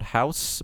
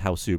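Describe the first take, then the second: First: It is said in a plain English accent. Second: It is said in a Japanese accent, extra final vowel. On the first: "It's called House" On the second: "the Japanese pronunciation of house"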